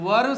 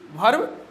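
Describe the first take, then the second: First: The word starts with a 'v' sound. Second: The word starts with a breathy 'bh' sound. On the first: The speaker calls it right. "वर्ब सही" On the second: The speaker calls it wrong. "भर्ब नहीं"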